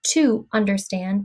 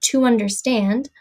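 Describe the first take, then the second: First: The words are said separately with breaks. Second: The words are blended together without breaks. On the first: The speaker calls it wrong. "not to understand" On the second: The speaker calls it right. "but to understand"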